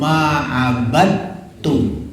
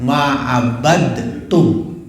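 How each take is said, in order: First: The d sound is heard plainly, without a bounce. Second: The d sound is bounced with an echo. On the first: "abadtum itu salah" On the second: "dalanya itu dikol-kolahkan"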